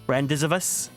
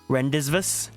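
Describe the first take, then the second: First: The word is sounded out as spelled. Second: The word is sounded out as spelled.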